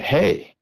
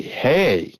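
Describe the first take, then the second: First: Retold yell. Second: Commanding yell. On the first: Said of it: "I yelled at it". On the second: Retold or imitated. Hunter retelling commanding the creature to stop, mock drill-instructor bark. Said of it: "in a more commanding voice".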